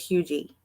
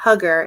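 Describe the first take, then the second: First: It is said without a g, like 'hughie'. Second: It is said with a hard g, like 'hugger'. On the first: The speaker calls it right. "It is Hughie" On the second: The speaker calls it wrong. "It is not Hugger"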